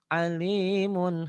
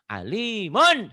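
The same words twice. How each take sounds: First: The final n is said clearly but lightly. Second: The final n is jerked out forcefully. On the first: The speaker calls it right. "Cukup ... dibaca terang berbunyi en, tidak usah ditekan atau disentak" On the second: The speaker calls it wrong. "untuk latihan kadang-kadang ... Tak boleh bacanya begitu, jelek ... dihentak-hentak"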